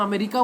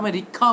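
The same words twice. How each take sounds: First: Said in the usual way. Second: "अमेरिका" with an aspirated "kha" ending; altered pronunciation. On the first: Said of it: "हम अमेरिका बोलते हैं". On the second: Shown as a demonstration. Teacher showing British saying words differently, aspirated k in "अमेरिका". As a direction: puff the k in "अमेरिका", ameri-kha. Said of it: "हर word को अलग अलग".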